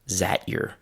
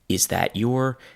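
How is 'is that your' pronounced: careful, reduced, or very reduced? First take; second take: reduced; careful. First: 'Is that' merges into a single 'zat' sound. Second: Each word is said fully and separately. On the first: "the sound from that disappeared because it sounds very similar to the z sound" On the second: "first you have"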